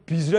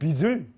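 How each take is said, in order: First: The middle consonant is aspirated with a breathy h. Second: The middle consonant is plain without breathy h. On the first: The speaker calls it wrong. "발음이 잘못됐습니다. 빚을 아니고" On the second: The speaker calls it right. "빚을 지으십니다. 히읗이 아니고"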